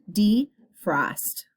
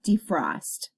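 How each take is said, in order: First: Defrost broken as de, pause, frost; split into syllables. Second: Said in the usual way. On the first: Shown as a demonstration. Teacher showing two syllables, defrost split with a clear pause. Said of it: "Two syllables, two vowel sounds". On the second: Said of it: "Your next word is defrost".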